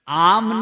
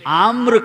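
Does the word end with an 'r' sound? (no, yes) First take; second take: no; yes. First: The word ends in an m sound, no r. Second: The word ends in an mr cluster. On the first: This is a corrupted, later form of the word. The speaker calls it wrong. "आम नहीं कहते हैं इसको" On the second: This is the pure Sanskrit form of the word. The speaker calls it right. "आम्र कहते हैं। शुद्ध उच्चारण क्या है?"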